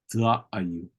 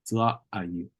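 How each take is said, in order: Both takes have the same delivery.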